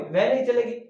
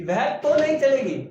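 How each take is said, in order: First: Said in the usual way. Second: "तो" पर ज़ोर, ऊँचा और तेज़; पक्का इनकार, "तो" दबाकर; stress on तो. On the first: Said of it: "लेकिन अगर ये शब्द आ गया कि". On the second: Shown as a demonstration. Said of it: "तो ने जोर दे दिया". ("तो" पर पूरा बल)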